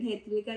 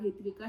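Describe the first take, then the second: First: హెత్విక with an "e" in the first syllable. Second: హిత్విక with an "i" in the first syllable. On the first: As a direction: say హెత్విక, opening on "heth". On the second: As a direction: say హిత్విక, opening on "hith". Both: Retold or imitated. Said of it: "కాదు హిత్విక".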